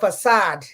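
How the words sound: The word is pronounced the French way. "The Frenchman say it's a facade"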